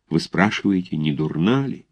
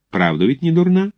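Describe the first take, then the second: First: Subdued, despondent question on «не дурна ли»; gloomy echo. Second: High, rising question on «не дурна»; coy, fishing question. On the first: A narrator's reading. Lovelorn cadet answering the bride's mother, mildly gloomy. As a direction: repeat «не дурна ли» quietly, with mild gloom. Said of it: "вздохнул шумно и уныло". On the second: Acted. Mother asking cadet about her daughter, coy high question. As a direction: lift «не дурна» high, inviting a compliment.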